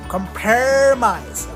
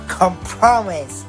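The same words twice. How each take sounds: First: It is said with an American accent. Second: It is said with a British accent. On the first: "in the American English we say compromise" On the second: "in the U K English they say compromise"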